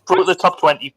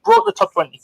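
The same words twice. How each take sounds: First: Said in the usual way. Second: Much higher mock-proud repeat of "Broke the top twenty"; mock triumph. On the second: Host repeats the chart placing in a high mock-proud voice. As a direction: crow it back up high like a proud announcer.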